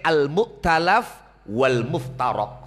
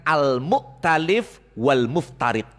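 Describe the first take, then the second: First: The vowels before the final consonants are 'a'. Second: The vowels before the final consonants are 'i'. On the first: "Ana kang mace" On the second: "ada yang disebut dengan"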